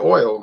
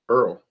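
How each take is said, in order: First: The word sounds like standard oil. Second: The word sounds like earl, the local parish way.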